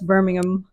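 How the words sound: The last syllable is a reduced 'um' sound. This is the British way of saying the name. The speaker calls it right. "like um, not am"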